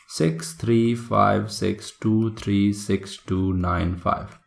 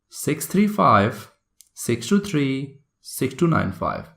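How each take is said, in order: First: The digits run together without grouping pauses. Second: Small pauses separate the digits into groups.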